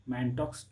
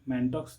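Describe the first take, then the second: First: The word ends with a 'ks' sound. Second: The word ends with a 'ks' sound.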